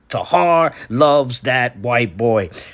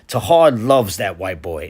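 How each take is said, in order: First: It is said with strong, heavier emphasis. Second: It is said with plain, ordinary emphasis.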